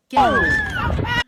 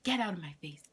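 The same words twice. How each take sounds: First: Very high, very loud mock-mom scream; imitating screaming mom. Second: Mock-mom order, moderately raised voice; imitating angry mom. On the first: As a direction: blow up into a full shriek as mom. Mom's order repeated as scream. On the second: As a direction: send them off like a fed-up mother. Mom dismissing her, retold.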